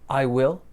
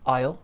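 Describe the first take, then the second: First: The word will is said in full. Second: Will is reduced to ul, linked to I.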